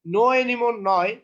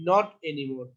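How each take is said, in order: First: Slow, louder wrong version; teacher marks the wrong phrase; wrong form stressed. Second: Said in the usual way. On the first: Shown as a demonstration. Teacher shows students the wrong form, slow and loud.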